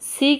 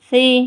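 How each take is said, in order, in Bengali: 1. প্রথম ব্যঞ্জনটি একটি তীক্ষ্ণ হিসিং ধ্বনি। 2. প্রথম ব্যঞ্জনটি নরম, জিভের ডগা থেকে। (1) "সি কিন্তু হবে না" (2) "সি জিব্বার আগা থেকে সি নরমভাবে"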